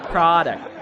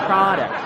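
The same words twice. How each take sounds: The two takes are said the same way.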